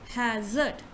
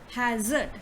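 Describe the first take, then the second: The two takes are said the same way.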